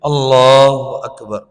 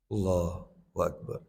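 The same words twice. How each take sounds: First: It is said aloud in a louder voice. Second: It is said quietly, almost under the breath. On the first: Saying it aloud is also allowed. "Dikeraskan, boleh" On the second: This is the minimum acceptable way. "Minimal sir"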